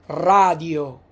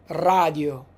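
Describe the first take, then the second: The two takes are said the same way.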